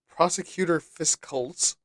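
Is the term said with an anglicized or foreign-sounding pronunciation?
anglicized. The term is said with a plain anglicized pronunciation.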